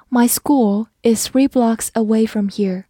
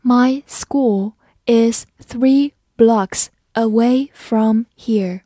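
First: Said in the usual way. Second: Slow, careful sentence for learners; slow read. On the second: Shown as a demonstration. Teacher reading slowly so students can follow. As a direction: read it slowly, every word clear. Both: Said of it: "好，我们慢慢来读".

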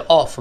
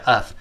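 First: "of" with a clear open o vowel; full form. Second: "of" reduced to a short schwa "əv"; weak form. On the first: Teacher shows unreduced "of", clear open o. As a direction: sound "of" fully as "ov". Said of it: "那本来就". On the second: Teacher shows weakened "of", short schwa vowel. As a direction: relax "of" into "uhv". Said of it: "弱化依然变成". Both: Shown as a demonstration.

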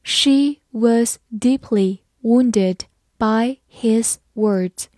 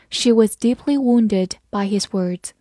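First: Word-by-word slow teacher reading; slow dictation-like model sentence; slow read-aloud. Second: Said in the usual way. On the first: Shown as a demonstration. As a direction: pace it out slowly, a gap after each word. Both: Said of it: "好，慢慢来读".

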